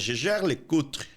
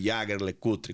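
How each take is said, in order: First: The name is pronounced the French way. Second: The name is pronounced the German way. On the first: The speaker calls it right. "A pronúncia é Jaeger-LeCoultre. Porque fica do lado francês da Suíça" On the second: The speaker calls it wrong. "Não é o Jaeger-LeCoultre, como algumas pessoas pensam"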